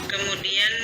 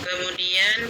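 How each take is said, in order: No difference in how they are said.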